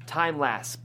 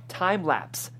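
The two takes are said the same way.

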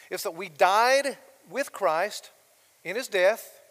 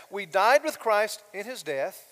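First: Slow, loud, weighty first line; emphatic slow statement. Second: Slow, louder restatement; repeated for emphasis. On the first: Pastor stressing the first point, slow and loud. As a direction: lean hard on died with Christ. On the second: Pastor repeating the point to his congregation, emphatic. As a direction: say it again, weighty. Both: Shown as a demonstration. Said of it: "I'm gonna bracket that".

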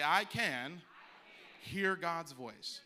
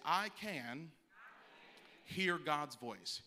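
First: Slow and much louder, pressing harder; louder call to repeat. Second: Slow, emphatic line for the congregation to echo; call to repeat. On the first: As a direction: push it out with more force for them to echo. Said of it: "I'm gonna say it again". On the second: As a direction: lead the crowd word by word, slowly. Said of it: "Everybody repeat after me". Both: Shown as a demonstration.

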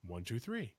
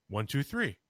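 First: Much softer, like an answer from far away; faint echo. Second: Said in the usual way. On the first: Retold or imitated. Imitating the thing in the woods answering his knocks, much softer. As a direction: count it back faint, as if from the woods.

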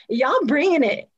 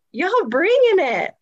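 First: Said in the usual way. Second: High, stretched-out BRINGING; emphatic hype. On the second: Real, not acted. Praising Florida powerhouses, emphatic and hyped. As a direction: draw out BRINGING with rising excitement. Repeats praise, drawn out and higher.

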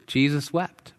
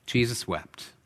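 First: Jesus wept with wept rising at the end like a question; wondering question. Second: Jesus wept said softly and slowly, falling at the end; solemn hush. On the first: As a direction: turn the verse into a puzzled question. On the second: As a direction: let the verse sink in quietly. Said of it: "the one verse everybody has memorized". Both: Shown as a demonstration.

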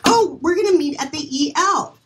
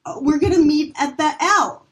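First: "E L" said as two letters, E then L; spelled-out E L. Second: "L" said as the single letter L; misread as L. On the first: Casting reader at table read, "E L" as two letters. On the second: Casting reader misreading the script, "the L" as one letter. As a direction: read "the L" as one letter L, not E L. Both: Retold or imitated. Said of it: "Well, it's spelled E L".

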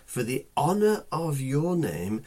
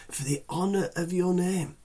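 First: Said in the usual way. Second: The word "honor" lifted and weighted; "honor" pressed, then the phrase falls away; stress on honor. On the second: Shown as a demonstration. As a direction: lean hard on "honor", higher, falling after it.

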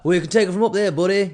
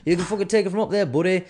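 First: Higher, louder mock tough-guy voice; first go at the pundit's voice, higher and louder; Michael Bisping impression. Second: Fast, higher, louder cocky brush-off; punchier, quicker repeat of the pundit impression; Michael Bisping impression. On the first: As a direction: puff up like a cocky fighter brushing off a fan. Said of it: "You know how he talks". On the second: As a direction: rattle it off like a swaggering fighter. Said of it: "that's how he talks".

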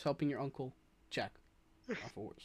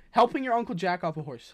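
First: "Helping your uncle jack", then a pause and a soft "off a horse"; pause after "jack". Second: Said in the usual way. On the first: Shown as a demonstration. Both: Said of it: "you're using a comma".

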